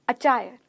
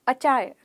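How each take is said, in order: Both takes have the same delivery.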